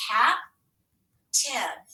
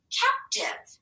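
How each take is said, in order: First: "Captive" split into cap, long pause, tive; "Captive" read slowly in two separated chunks; syllable by syllable. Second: Said in the usual way. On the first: Shown as a demonstration. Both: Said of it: "let's scoop and read it".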